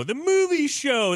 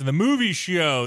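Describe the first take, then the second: First: Pitched way up, grand announcement; high excited announcer voice. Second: Said in the usual way. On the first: Shown as a demonstration.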